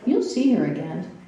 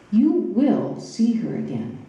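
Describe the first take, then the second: First: The word will is not stressed. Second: The word will is strongly stressed.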